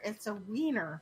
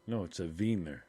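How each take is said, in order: First: "wiener" said with an English W; English pronunciation. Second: "wiener" said with a V, "veener"; German pronunciation. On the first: Teasing back with the American "wiener", W sound. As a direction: start "wiener" with a plain English W. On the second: Insisting on the German way, "wiener" said "veener". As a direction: start "wiener" with a German V sound. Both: Shown as a demonstration. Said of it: "pronounced as V's".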